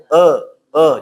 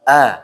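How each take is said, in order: First: The vowel is heavy, dark and thick. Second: The vowel is open, clear and thin. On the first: The speaker calls it wrong. "jangan sampai e e jadi kayak tebal gitu" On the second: The speaker calls it right. "harus makanya fathah itu dibuka supaya jelas"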